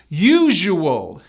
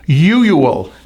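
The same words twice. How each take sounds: First: The middle consonant is a buzzing zh sound. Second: The middle consonant lacks the buzzing zh sound. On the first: The speaker calls it right. "So the whole word is u-ju wool" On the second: The speaker calls it wrong. "many of my students say usual, and that's not right"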